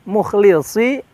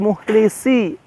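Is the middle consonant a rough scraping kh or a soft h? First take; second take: rough kh; soft h. First: The middle consonant is a rough, scraping kh. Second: The middle consonant is a soft, breathy h. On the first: The speaker calls it right. "huruf kha ... kasar terdengarnya" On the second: The speaker calls it wrong. "Hati-hati menjadi muhlisi"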